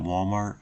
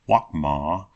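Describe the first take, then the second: First: The word ends with a clear t sound. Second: The word ends without a t sound.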